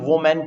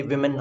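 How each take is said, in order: First: वोमेन said as "WO-men", o in first syllable; वोमेन read as it is spelt; common misreading. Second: विमेन said as "WIM-en", short i; विमेन with i in place of o; correct pronunciation. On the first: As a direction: say वोमेन with a "wo" start. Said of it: "कुछ लोग इसे वोमेन पढ़ते हैं". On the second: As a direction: say विमेन with a "wi" start. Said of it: "विमेन होना चाहिए". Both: Shown as a demonstration.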